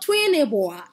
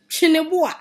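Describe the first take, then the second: First: The name begins with a 'tw' sound. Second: The name begins with a 'ch' sound. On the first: The speaker calls it wrong. "It is not Twineboa" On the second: The speaker calls it right. "It is Chineboa"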